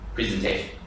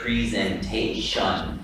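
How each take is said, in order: First: The weak syllables are reduced in natural speech. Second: Every syllable is said fully and distinctly. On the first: "pronunciating it, ... right way to say it" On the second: "That's enunciating"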